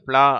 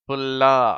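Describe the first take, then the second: First: It is said at normal speed as one syllable. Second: It is said slowly, its sounds drawn apart. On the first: "இதை ப்ளா அப்படின்னு வாசிச்சோம்" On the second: "நான் மெதுவா உச்சரிக்கிறேன்"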